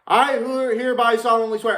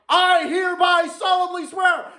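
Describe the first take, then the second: First: It is said quietly, without yelling. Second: It is yelled loudly, with force. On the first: The speaker feels embarrassed and holds back. The speaker calls it wrong. "I tried saying it like" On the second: The oath is said with passion. The speaker calls it right. "I embarrassingly yelled the fucking paladin's oath"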